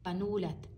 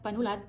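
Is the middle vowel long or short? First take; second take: long; short. First: The middle syllable is raised and lengthened. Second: The syllables run straight through without lengthening. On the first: "napataas ko yung boses ko dito, pata, napahaba ko" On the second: "dumire-diretso ko panulat, ito ay hindi na siya long vowel"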